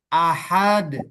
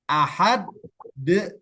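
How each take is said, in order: First: The final consonant ends without an extra vowel. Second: The final consonant releases into an extra vowel. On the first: The speaker calls it right. "Jadi ahad" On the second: The speaker calls it wrong. "seolah-olah timbul huruf baru ... Nah itu salah"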